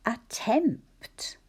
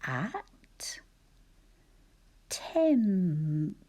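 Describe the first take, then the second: First: Said in the usual way. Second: "At", long pause, "tempt" with m, p, t all heard; said slowly. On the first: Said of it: "Think about those sounds and syllables". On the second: Shown as a demonstration. Teacher showing a tricky word, "At tempt" slowly, syllable by syllable. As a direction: stretch "At" and "tempt" apart, each consonant distinct. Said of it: "if you say it slowly".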